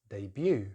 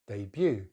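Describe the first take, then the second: First: The stress is on the second syllable. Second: The stress is on the second syllable.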